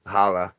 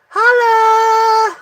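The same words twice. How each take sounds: First: Said in the usual way. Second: High, loud shout of the name. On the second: Real, not acted. Telling viewers his last name, a loud high shout. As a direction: belt it out like a call.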